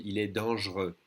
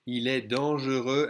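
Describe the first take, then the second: First: «il est dangereux» as dang'reux, silent X; skipped E. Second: «Il est dangereux» with the middle E sounded; full E. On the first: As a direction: drop the middle E of dangereux in «il est dangereux». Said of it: "skip this E and say". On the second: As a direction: say dangereux in three syllables in «Il est dangereux». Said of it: "we're gonna skip this E". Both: Shown as a demonstration.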